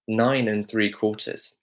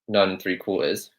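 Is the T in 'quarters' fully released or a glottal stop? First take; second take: fully released; glottal stop. First: The T in quarters is fully released. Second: The T in quarters is a glottal stop. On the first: "Harry Potter here says nine and three quarters" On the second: "with the glottal stop T, it would be nine and three quarters"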